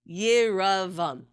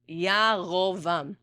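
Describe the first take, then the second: First: The second vowel is an 'a' sound. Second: The second vowel is an 'o' sound. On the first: The speaker calls it wrong. "this is the way I used to pronounce it" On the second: The speaker calls it right. "because of the Kamatz Katan, the word then becomes"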